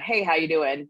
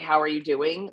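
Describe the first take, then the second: First: It is a quick, offhand greeting. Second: It is an earnest, caring question.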